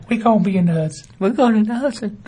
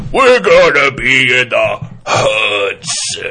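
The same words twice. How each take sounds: First: Higher, cheerful housewife voice; Midwestern housewife. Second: Slow, loud wrestling promo voice; WWF wrestler. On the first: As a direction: sing it out like checking the turkey. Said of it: "like a Midwestern housewife". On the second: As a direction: growl it like a pro wrestler. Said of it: "like a W W F wrestler". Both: Retold or imitated.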